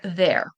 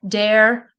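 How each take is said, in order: First: It begins with a th sound. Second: It begins with a d sound. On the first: The speaker calls it right. "instead of saying the" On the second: The speaker calls it wrong. "they'll say like a D"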